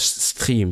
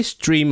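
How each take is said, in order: First: "stream" with a throaty French R; French pronunciation. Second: "stream" said with an English R; English pronunciation. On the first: Streamer asking French speaker how to say it, French-accented pronunciation. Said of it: "what you say it in French". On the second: Streamer asking French speaker how to say it, English pronunciation. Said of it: "say it with an English accent". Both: Shown as a demonstration.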